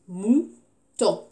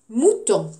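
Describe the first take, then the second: First: Mouton split as MOU, pause, TON; syllable by syllable. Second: Said in the usual way. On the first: Shown as a demonstration. Teacher counting two syllables, Mouton split syllable by syllable. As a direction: say Mouton as two separate beats. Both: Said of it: "Deux syllabes".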